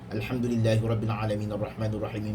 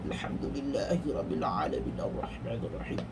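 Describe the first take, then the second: First: It is recited very fast, letters run together. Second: It is recited in a rough, hoarse voice. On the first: "kita membaca terlampau laju sehingga menghilangkan sifat huruf itu" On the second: "kita membaca dalam keadaan sehingga serak-serak"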